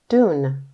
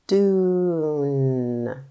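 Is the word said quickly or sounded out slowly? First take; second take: quickly; slowly. First: The word is said quickly as one unit. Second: The word is said slowly, sound by sound. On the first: "Let's say it fast" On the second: "Are you ready to sound it out?"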